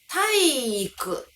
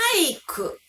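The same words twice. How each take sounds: First: The i sound is held long. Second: The i sound is cut short. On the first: This is the original correct pronunciation. "いが長音になるはず" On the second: This is common in real speech. "いが一つしかない短い音になってしまう"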